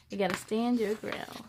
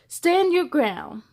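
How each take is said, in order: First: Said in the usual way. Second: Slow, steady "Stand your ground" from a brave bubble; firm hero line. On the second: Acted. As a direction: plant your feet and say it firmly, slowly. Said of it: "but Mister Bubble said".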